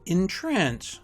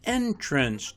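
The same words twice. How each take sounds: First: The stress is on the second syllable. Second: The stress is on the first syllable. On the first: It is used as a verb. "Two-syllable verbs are stressed on the second syllable" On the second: It is used as a noun. "Two-syllable nouns are stressed on the first syllable"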